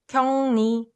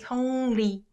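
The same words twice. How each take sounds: First: The second syllable begins with an n sound. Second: The second syllable begins with a clear l sound. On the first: "lu sound gets replaced to n sound, and you pronounce it like this" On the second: "you can be really clear with the l sound"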